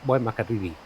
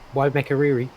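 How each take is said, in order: First: The name is said with a Maori-style pronunciation. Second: The name is said with an English-style pronunciation.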